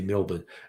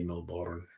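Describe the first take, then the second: First: The second syllable is cut short and weak. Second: The second syllable is said fully, like 'born'. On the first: The speaker calls it right. "We say Melbourne. ... we think there are too many letters" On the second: The speaker calls it wrong. "We don't say Melbourne"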